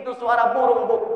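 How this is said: It is said loudly at a high pitch.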